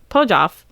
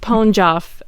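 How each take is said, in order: First: The name is said without an n sound. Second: The name is said with an n sound. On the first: The speaker calls it wrong. "I forgot the N" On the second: The speaker calls it right. "I wonder if I got the N there"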